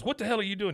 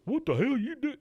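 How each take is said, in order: First: High-pitched, exasperated demand; indignant Hank. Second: Very high, silly parroting voice; mocking. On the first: Retold or imitated. Retelling Hank confronting the guy who mocks him, indignant. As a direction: act out an annoyed challenge, pitch raised. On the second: The guy making fun of Hank, mocking. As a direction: echo it back in an exaggerated high mimic. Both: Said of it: "starts making fun of Hank".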